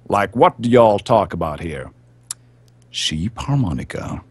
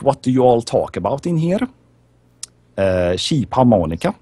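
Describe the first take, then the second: First: It is said in his normal accent. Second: It is said in a Swedish accent.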